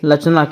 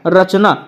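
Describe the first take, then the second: First: The word begins with an l sound. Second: The word begins with an r sound. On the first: "लचना पढ़ेंगे" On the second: "यहाँ पर रा है"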